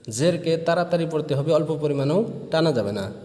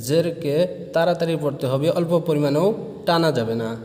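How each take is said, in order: Both takes have the same delivery.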